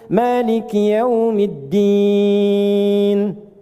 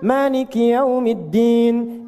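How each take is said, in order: First: The final vowel is held about three seconds. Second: The final vowel is held about one second. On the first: "bisa kita baca tiga detik ujungnya / Enam harakat" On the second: "boleh dibaca satu detik, dua harakat. Untuk bacaan cepat"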